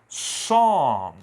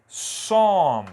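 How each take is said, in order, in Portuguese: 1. A palavra começa diretamente com um som de S. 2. A palavra começa diretamente com um som de S.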